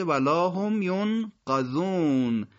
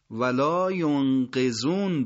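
First: ولا هم ینقذون with "qa" in the verb; qaf with fatha. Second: ولا ینقذون without "hum", "qe" in the verb; qaf with kasra. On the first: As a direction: say ینقذون slowly as "yon-qa-zun". (ولا هم ینقذون شمرده، با قافِ مفتوح) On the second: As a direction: say ینقذون slowly as "yon-qe-zun". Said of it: "یه عبارتی داشتید آخرش چی بود؟". (ولا ینقذون شمرده، با قافِ مکسور) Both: Shown as a demonstration.

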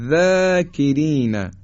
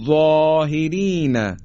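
First: ذاکرین with thin fronted "zæ", drawn out; higher, slow ذاکرین, keep ذا light; light tarqiq. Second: ظاهرین with thick dark ظ and rounded long vowel; higher, slow ظاهرین, ظا full and backed; heavy tafkhim. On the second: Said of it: "باز درشت". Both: Shown as a demonstration.

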